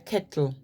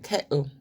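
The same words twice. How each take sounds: First: The middle T is clearly pronounced. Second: The middle T is replaced by a glottal stop. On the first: "They don't say kettle" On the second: "the main difference is the glottal stop. The T is missing"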